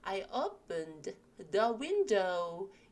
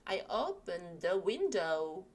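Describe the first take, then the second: First: There is a clear pause after 'opened'. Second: It is said fast with 'opened' joined to 'the'. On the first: "이렇게 끊어 읽을 때는" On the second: "좀 빠르게 읽어서"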